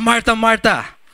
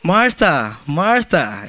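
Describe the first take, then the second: First: It is said in an angry tone. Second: It is said in a sweet tone.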